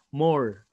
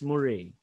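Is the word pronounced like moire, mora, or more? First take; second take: more; moire. First: It is said like the word more. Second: It is said as moire. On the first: The speaker calls it wrong. "I was pronouncing it as more" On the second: The speaker calls it right. "the safest pronunciation for it is Moire"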